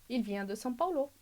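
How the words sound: The pitch falls at the end. It is a statement. "depois afirmação"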